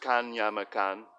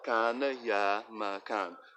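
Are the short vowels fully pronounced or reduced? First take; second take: reduced; full. First: The short vowels are weakened or dropped. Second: The short vowels are fully pronounced.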